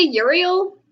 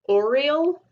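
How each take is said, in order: First: The name starts with a 'you' sound. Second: The name starts with an 'oh' sound. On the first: This is how the speaker and many others say it. "or I say Uriel" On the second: This is how the audio version says it. "they called him Oriel"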